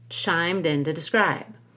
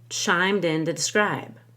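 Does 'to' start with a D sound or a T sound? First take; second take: D; D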